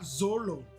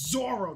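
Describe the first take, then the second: First: The middle consonant is an L sound. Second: The middle consonant is an R sound. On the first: The speaker calls it wrong. "not Zolo" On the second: The speaker calls it right. "It's Zoro, not Zolo"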